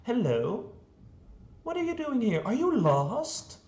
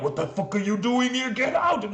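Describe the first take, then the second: First: Much higher, gentle sing-song, slowing at the end; mock-friendly villain talking to a little girl; overly sweet greeting. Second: Higher, fast, louder mock yell; half-hearted pretend outburst; imitated angry yell. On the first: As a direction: greet the lost child far too kindly. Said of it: "No, he's like". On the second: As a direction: chase the intruder off, hammed up. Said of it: "he's not even like".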